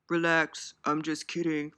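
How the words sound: It is said in a put-on imitated voice.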